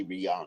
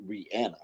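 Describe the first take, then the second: First: Rihanna said ree-AH-nuh, open AH in the middle; common pronunciation. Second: Rihanna said ree-ANN-uh, flat A as in "can". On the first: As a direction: say Rihanna with a broad "ah". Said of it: "But we all say [name]". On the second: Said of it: "it's pronounced Rihanna. She said it". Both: Shown as a demonstration.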